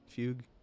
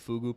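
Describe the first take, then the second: First: The word ends on the 'g' consonant. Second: The word ends in an extra 'oo' vowel. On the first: The speaker calls it right. "I think I'm pronouncing that right" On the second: The speaker calls it wrong. "pronouncing fugue fugu, which is kind of funny"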